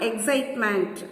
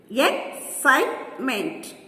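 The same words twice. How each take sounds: First: Said in the usual way. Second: "excitement" slowly split as ex, cite, ment; syllable by syllable. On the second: Shown as a demonstration. Teacher counting syllables for children, "excitement" broken up slowly. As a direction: pause between the three syllables of "excitement". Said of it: "three syllables".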